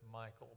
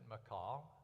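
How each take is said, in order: First: The name is said like English Michael. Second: The name is said in a Hebrew-like way. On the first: The speaker calls it wrong. "generally, you'll hear it as Michael. ... That's not real close to the Hebrew" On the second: The speaker calls it right. "some people do pronounce it Michal. Uh, and Hebrew, that's much, much closer to the name"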